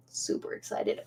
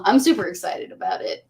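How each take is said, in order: First: Breathy whisper, no voice. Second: Said in the usual way. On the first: Real, not acted. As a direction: whisper it to yourself. Whispered repeat of excited.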